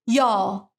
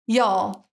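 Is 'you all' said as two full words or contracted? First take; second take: contracted; contracted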